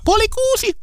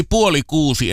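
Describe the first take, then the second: First: Very high-pitched imitation of a child; child's voice. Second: Said in the usual way. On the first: Guest recalls a children's TV show's opening, mimicked child voice. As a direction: squeak it out like a little kid announcing. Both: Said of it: "se, joka alkoi sillä lapsen äänellä".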